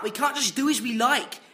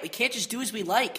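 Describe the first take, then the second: First: It is said in his British stage accent. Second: It is said in his normal speaking accent.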